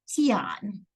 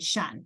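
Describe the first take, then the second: First: The letters are sounded out one by one. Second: It is said as the single syllable shun. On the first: The speaker calls it wrong. "If I was trying to sound this out letter by letter" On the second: The speaker calls it right. "I can pronounce the T like an S H"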